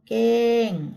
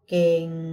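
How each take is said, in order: First: The word is said on a falling tone. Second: The word is said on a low tone. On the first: "เสียงโท" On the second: "เสียงเอก"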